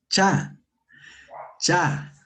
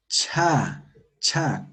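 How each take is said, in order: First: "cha" formed further back in the mouth, without a puff of air. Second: "cha" with a strong puff of air after the ch; aspirated CHA. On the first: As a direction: say "cha" unaspirated, tongue set back. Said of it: "Más al fondo". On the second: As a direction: blow the "cha" out. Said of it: "Como soplando". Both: Shown as a demonstration.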